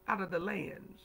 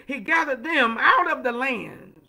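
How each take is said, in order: First: Softer, lower repeat of the phrase; hushed echo. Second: Emphatic proclamation. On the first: Preacher echoes the verse to let it sink in, hushed. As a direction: let it settle quietly after the proclamation. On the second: Preacher hammers the scripture home to the congregation, loud and emphatic. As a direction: proclaim it to the whole church. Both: Real, not acted.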